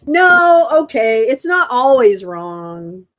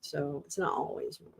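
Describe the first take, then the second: First: Loud outburst, drawn out at the end; loud reaction. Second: Much softer, lower voice; quiet restatement. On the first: Streamer blurting out a reaction to a claim, loud. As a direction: react loudly, stretching the words. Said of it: "I was just reacting". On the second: Streamer settling down after an outburst, quiet and low. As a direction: say it low and subdued. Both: Real, not acted.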